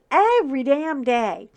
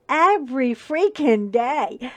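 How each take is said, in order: First: Every damn day with every hit loud; exasperated, hammered repeat; stressed damn. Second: EVERY pushed out loud and slow; slow emphatic complaint; stressed every day. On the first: Repeated emphatic phrase. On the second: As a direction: lean hard on Every freaking day. Emphatic retelling of death threats. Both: Retold or imitated.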